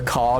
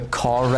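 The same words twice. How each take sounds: First: The final R is silent before a consonant. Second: The final R is pronounced, linking into the vowel. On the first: "So you say like the car drove down the road" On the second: "you still pronounce the R at the end of a word if it's before a vowel"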